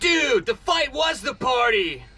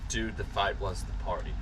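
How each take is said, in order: First: It is said in a Californian, American accent. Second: It is said in a plain, neutral accent.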